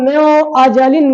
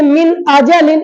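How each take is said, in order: First: The n sound is not pronounced clearly. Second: The n sound is pronounced clearly and separately. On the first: The speaker calls it wrong. "इसको म्यो अजलिन नहीं कह सकते" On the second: The speaker calls it right. "इजहार होगा"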